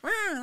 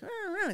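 First: Loud, high blaring "rah"; forceful high siren blare; urgent siren imitation. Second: High "rah, rah" siren wail; high two-note wail, not forceful; mild siren imitation. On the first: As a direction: blast one siren wail to clear the road. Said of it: "Get the hell out of the way". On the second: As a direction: mimic an ordinary siren going up and down. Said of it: "they weren't like".

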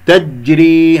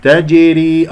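First: تجري with the ج gripped instead of bounced; held jeem. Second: تجري with a small echoing release on ج; bounced jeem. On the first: Teacher shows what to avoid, تجري with clamped jeem. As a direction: stick on the ج of تجري without releasing it. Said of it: "هذا مسك وليس اضطراب في المخرج". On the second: Teacher models it for students, تجري with qalqala on jeem. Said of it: "الجيم مقلقلة". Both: Shown as a demonstration.

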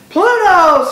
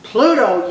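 First: Very high, very loud scream; screamed cheer. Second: Louder, moderate cheer; crowd yell. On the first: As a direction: scream it back louder, full out. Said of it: "screamed the underdogs". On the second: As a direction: answer the chant with a yell. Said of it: "yelled the underdogs". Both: A narrator's reading.

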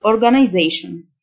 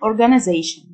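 First: Organization the British way, "-eye-ZAY-shn"; British pronunciation. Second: Organization the American way, "-uh-ZAY-shn"; American pronunciation. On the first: Teacher contrasting accents for learners, British pronunciation of organization. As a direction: say organization in British style, long i before "zation". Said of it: "وده النطق البريتش". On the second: Teacher contrasting accents for learners, American pronunciation of organization. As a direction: say organization in American style, short vowel before "zation". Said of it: "النطق الأمريكان".

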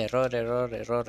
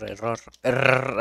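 First: Said in the usual way. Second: "error" with a long, overdone rolled R; struggled rolled R. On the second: Real, not acted. Player failing to pronounce the R, "error" with a laboured trill. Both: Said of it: "no puedo pronunciar bien la R".

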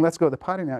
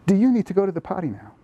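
First: Put-on a flat instruction, telling the child what to do; bossy command. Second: Asking for information, a touch higher and lighter; gentle question. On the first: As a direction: say it as an order to the toddler. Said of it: "So instead of saying". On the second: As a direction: offer it as a real question, not an order. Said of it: "you say". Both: Shown as a demonstration.

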